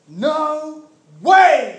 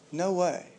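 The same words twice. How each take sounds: First: It is said forcefully and boldly. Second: It is said softly and quietly.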